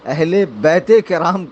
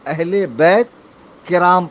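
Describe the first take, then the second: First: A linking 'e' follows 'bait'. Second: No linking vowel follows 'bait'. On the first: The speaker calls it right. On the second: The speaker calls it wrong.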